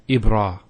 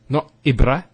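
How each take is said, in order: First: The final a sound is held long. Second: The final a sound is short. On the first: The speaker calls it right. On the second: The speaker calls it wrong.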